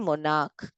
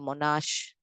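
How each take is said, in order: First: The word ends with a k sound. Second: The word ends with an sh sound. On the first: The speaker calls it right. "monarch k k" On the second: The speaker calls it wrong. "You don't read it as"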